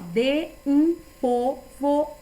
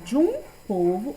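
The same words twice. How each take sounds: First: De and um are said as separate syllables. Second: De and um are merged into one syllable. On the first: The speaker calls it wrong. "eu não falo assim" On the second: The speaker calls it right. "Já juntei o de e o um"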